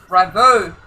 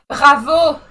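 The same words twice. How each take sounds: First: Said in the usual way. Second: Louder, higher "Bravo", the R rolled at the back of the throat as in French. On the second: Shown as a demonstration. Gamer trying out the French co-driver's name, "Bravo" with a French R. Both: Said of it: "how much French people like to pronounce R".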